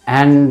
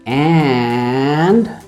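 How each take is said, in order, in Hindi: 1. अंतिम 'd' व्यंजन खींचा जाता है। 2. स्वर ध्वनि खींची जाती है। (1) "ड को खींच रहे हैं" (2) "वावल पे स्ट्रेस देके जितना मर्जी खींचना है खींचो"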